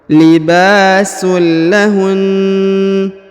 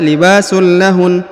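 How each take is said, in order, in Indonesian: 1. Bunyi n di akhir ditekan dan ditahan panjang. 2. Bunyi n di akhir pendek dan tidak ditekan. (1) "agak ditekan dan dipanjangkan dua harokat" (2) "tidak dibaca libasul lahun"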